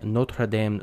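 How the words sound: It is said with a French accent. "That's my terrible French accent"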